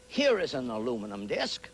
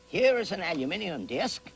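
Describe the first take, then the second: First: Aluminum is said with four syllables, American style. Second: Aluminium is said with five syllables, British style.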